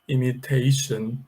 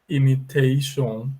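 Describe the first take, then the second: First: The ending has a weak reduced vowel, like shun. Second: The ending has a closed O vowel, like shon. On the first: The speaker calls it right. "and here we say imitation" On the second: The speaker calls it wrong. "tendendo a pronunciar um som de O, de O fechado"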